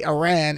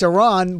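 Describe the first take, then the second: First: "Iran" with the short A of "ran"; demonstrated "Iran", rhymes with "can"; American Iran. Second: "Iran" with a long AH in the second syllable; demonstrated "Iran", rhymes with "on". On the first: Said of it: "We say Iran in America". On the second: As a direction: say "Iran" as ih-RAHN. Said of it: "only in America they say". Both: Shown as a demonstration.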